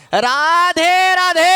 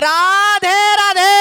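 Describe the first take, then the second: First: High, slow, louder drawn-out cry; louder shout. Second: Much higher, louder full-throated cry; loudest shout. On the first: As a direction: push the call out for the crowd. (আরও জোরে টেনে চিৎকার) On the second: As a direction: give it everything, top of the voice. (গলা ফাটিয়ে সর্বোচ্চ জোরে চিৎকার) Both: Shown as a demonstration. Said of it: "আরো জোরে বলতে হবে".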